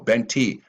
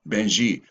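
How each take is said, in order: First: The middle consonant is a 't' sound. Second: The middle consonant is a 'j' sound. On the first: This is the name as written in the book. The speaker calls it right. "No, Benti" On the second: This is how people who could not pronounce the name said it. The speaker calls it wrong. "I must say it Benji"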